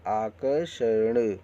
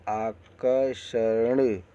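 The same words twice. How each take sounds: First: आकर्षण with र् before षण, said slowly; careful correct आकर्षण; correct pronunciation. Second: आकर्षण read very slowly as the misspelt form आकशर्ण; very slow, deliberately wrong आकर्षण; wrong pronunciation. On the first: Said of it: "इसको आकर्षण बोलेंगे". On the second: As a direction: drag out आकर्षण with र after श, the wrong way. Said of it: "अशुद्ध शब्द देखिए". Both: Shown as a demonstration.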